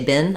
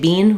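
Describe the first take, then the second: First: It is said in the American way. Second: It is said in a non-American way. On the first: The speaker calls it right. "we say been" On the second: The speaker calls it wrong. "in American English, we don't say been"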